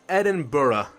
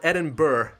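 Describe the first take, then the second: First: The ending is said to sound like borough. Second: The ending is said as spelled, like burg. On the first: This is how the name is actually said. "but it's Edinburgh or Borough" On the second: This is how the spelling suggests it sounds. "it looks like Edinburgh"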